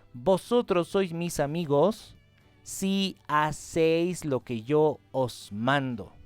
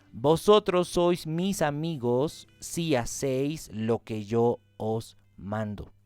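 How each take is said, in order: Both takes have the same delivery.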